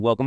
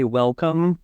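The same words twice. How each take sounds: First: "Welcome" rushed and slurred into what follows; words run together. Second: Said in the usual way. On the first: Shown as a demonstration. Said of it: "all words run together". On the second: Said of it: "I don't say welcome".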